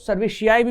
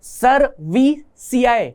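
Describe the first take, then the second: First: The middle consonant is an 'sh' sound. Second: The middle consonant is a plain 's' sound.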